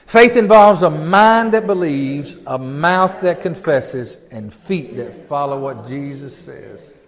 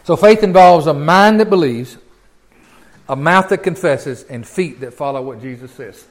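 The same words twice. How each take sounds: First: Slow, measured group-reading pace; read-along recitation. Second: Said in the usual way. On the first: Shown as a demonstration. Preacher leading the congregation in reading together, slow and measured. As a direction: stretch each phrase so others can read along. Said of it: "Read that with me, will you?".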